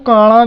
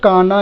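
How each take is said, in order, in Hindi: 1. बीच का व्यंजन मूर्धन्य फ़्लैप है। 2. बीच का व्यंजन सामान्य दंत्य न है। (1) "कुछ लोग इसको काना भी बोलेंगे। ठीक है, गलत।" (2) "हमें केवल काना ही बोलना है, जो सही है"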